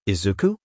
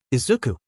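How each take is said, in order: First: Izuku? with a low start and a questioning rise; disbelieving echo. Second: Said in the usual way. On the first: A narrator's reading. Aizawa repeats the first name, surprised, rising.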